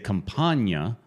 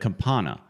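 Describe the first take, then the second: First: The middle sounds like 'nya'. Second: The middle sounds like a plain 'na'. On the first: The speaker calls it wrong. "say Campagna instead of Campana" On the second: The speaker calls it right. "Proper... It's Campana"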